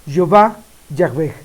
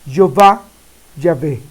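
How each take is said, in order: No difference in how they are said.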